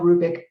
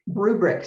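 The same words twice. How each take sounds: First: "rubric" slipped to "rubick"; slip of the tongue. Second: Said in the usual way. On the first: Real, not acted. Lecturer misspeaking while naming the talk's rubric, "rubric" said as "rubick". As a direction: drop the second r in "rubric", saying "rubick".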